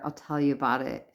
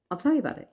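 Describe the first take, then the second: First: Said in the usual way. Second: High-pitched, lilting promise; playful repeat. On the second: Real, not acted. Vlogger promising viewers a follow-up, playful high lilt. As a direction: lift it high and toss it off.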